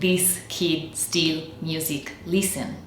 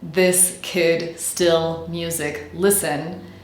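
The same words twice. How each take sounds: First: The vowels are a long, tense 'ee' sound. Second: The vowels are a short, relaxed 'ih' sound. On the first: The speaker calls it wrong. "we get something like" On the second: The speaker calls it right. "rather than"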